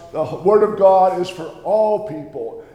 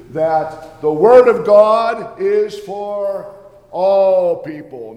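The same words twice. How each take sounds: First: "Word" stressed at normal pace, the line falling at the end; normal-pace restatement. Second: "Word" leaned on hard, slow and louder, "people" dropping away; slow emphatic stress on Word. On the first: Luther repeats his point to the church, a normal-paced restatement. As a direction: say "The Word of God is for all people" again at normal speed, stressing "Word". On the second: Preacher driving home the point to the congregation, slow and emphatic. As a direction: spell out "that the Word of God is for all people" slowly, hammering "Word". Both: Acted.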